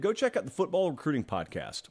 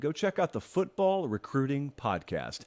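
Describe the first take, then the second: First: The phrase is spoken quickly. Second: The phrase is spoken slowly. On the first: The speaker calls it wrong. "I said that fast" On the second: The speaker calls it right. "so I'll say it again"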